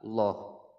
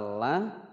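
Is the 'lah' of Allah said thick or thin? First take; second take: thick; thin. First: The lam is heavy with a rounded o vowel. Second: The lam is light with an open a vowel. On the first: The letter before it carries fathah or dhammah. "kalau yang tebal dengan suara loh" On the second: The letter before it carries kasrah. "Kalau yang tipis tadi dengan suara lah"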